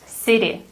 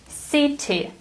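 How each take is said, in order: First: The middle t sounds like a soft d. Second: The middle t is a crisp t. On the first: "compare American to British accent" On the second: "British English sounds completely different"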